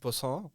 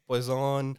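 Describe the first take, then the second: First: It is said with a French pronunciation. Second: It sounds like the English word poison. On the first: This is the original French way of saying it. "I think it's a French word. They said poisson" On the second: This is how many people commonly say it. "A lot of people call it poison"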